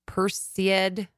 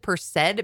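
First: The word starts like Perseus. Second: The word does not start like Perseus. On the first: The speaker calls it right. "It comes from the root word Perseus. So it's like Perseid" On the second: The speaker calls it wrong. "I always have said Perseid meteor shower. That's not how you say it"

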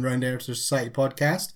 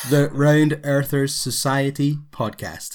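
First: It is said fast. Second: It is said slowly.

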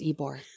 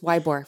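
First: The name is said the way locals say it. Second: The name is said the way tourists say it. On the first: The speaker is from the area. The speaker calls it right. "For the rest of us, it's Ybor" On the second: The speaker is not from the area. The speaker calls it wrong. "So if you're a tourist, it's Ybor"

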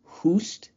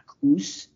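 First: The name starts with an H sound. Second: The name starts with a K sound. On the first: The speaker calls it right. "It's a silent K" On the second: The speaker calls it wrong. "It's not Koos"

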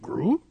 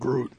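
First: It is said in a worried voice. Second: It is said in a sad voice.

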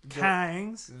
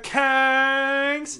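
First: The vowel is short and clipped. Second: The vowel is drawn out and elongated. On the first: The speaker calls it wrong. "I'm not getting the elongated A's" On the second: The speaker calls it right. "There you go"

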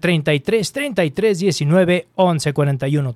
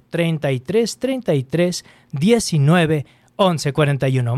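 First: The number is said fast. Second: The number is said slowly.

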